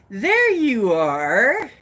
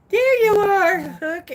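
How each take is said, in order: First: Loud, slow, swooping call. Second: Very high, loud greeting; high calling out. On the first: Host greets arriving viewers, calling out slowly. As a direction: stretch it out with a big pitch swoop. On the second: Host greets arriving viewers, high loud call. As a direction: sing it out high to someone just spotted. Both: Pretend.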